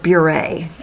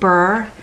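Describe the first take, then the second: First: The word sounds like 'byoor'. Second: The word sounds like 'burr'. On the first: "they pronounce it Bure" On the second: "I think you pronounce it Burr"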